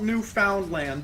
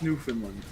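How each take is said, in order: First: The word is sounded out as it is written. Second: The word is said in its usual spoken form. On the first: "it's spelled Newfoundland" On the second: "but it's pronounced Newfoundland"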